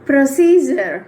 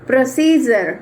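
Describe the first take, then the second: The two takes are said the same way.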